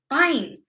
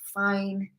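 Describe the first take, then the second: First: It sounds angry and exasperated. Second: It sounds reluctant and resigned. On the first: The person is exasperated and has given up. "with a sort of angry intonation" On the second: The person agrees without really wanting to. "it's kind of like they're giving in"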